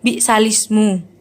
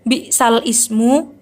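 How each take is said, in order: First: The hamza drops and 'al' merges into 'lismu'. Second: The hamza of ismu is kept after 'al'. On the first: This is how it is actually recited. "namun menjadi dibaca" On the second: This is the original written form. "pada lafaz aslinya"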